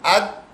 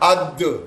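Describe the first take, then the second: First: The final consonant stops with no echo. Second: The final consonant bounces with an echo. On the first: "बगैर गूंज के" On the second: "गूंज के साथ"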